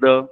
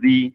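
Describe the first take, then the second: First: The vowel is short and weak, like 'thuh'. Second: The vowel is long and full, like 'thee'. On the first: The next word starts with a consonant. "Sometimes द pronunciation of this word is द" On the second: The next word starts with a vowel. "Sometimes द pronunciation of this word is दी"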